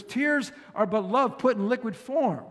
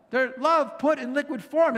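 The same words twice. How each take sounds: First: Said in the usual way. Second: "form" lifted high and louder at the end of the restatement; preacher's rising repeat for emphasis; emphatic repeat. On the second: Shown as a demonstration. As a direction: drive the phrase home with a rising, fuller "form".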